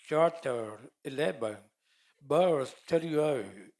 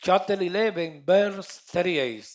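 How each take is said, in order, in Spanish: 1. Se dice con un acento más americano. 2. Se dice con un acento menos americano.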